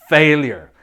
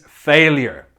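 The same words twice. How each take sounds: Both takes have the same delivery.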